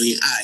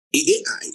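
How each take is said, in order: First: Said in the usual way. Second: "A I" said as two separate letters, A then I. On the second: Shown as a demonstration. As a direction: spell out "A I" letter by letter, not "Ai". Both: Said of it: "that's how I call it".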